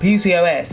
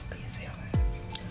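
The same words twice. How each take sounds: First: It is said loudly and openly. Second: It is said quietly and softly. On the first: The condition shows obvious outward signs. "It's not P C O S" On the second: The condition is hidden and shows few signs. "So it's very silent"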